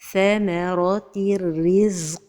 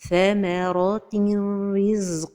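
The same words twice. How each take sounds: First: The n merges into r without nasalization. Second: The n is nasalized before the r. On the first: The speaker calls it right. "cet idgham se fait sans غنة" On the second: The speaker calls it wrong. "L'erreur est la prononciation avec غنة"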